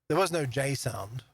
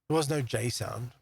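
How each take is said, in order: Both takes have the same delivery.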